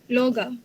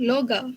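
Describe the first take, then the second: The two takes are said the same way.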